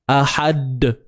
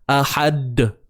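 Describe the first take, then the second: No difference in how they are said.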